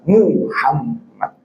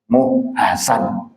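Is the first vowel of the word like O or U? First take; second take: U; O. First: The first vowel sounds like U. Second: The first vowel sounds like O. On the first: The speaker calls it right. "yang ada apa? U" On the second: The speaker calls it wrong. "U itu dibaca O"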